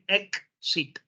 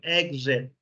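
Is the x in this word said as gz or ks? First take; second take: ks; gz. First: The x is said as a ks sound. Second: The x is said as a gz sound. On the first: The speaker calls it wrong. "you don't pronounce it cuz. You don't say exit" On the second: The speaker calls it right. "It is exit. Exit. Like a good, like gum, and z"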